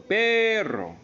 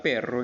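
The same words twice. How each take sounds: First: "perro" with PE held long and high; stress on PE. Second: Said in the usual way. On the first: Shown as a demonstration. Teacher classifying perro as grave, "perro" with long high PE. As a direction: stretch the first syllable of "perro", pitched up. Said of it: "perro es una grave".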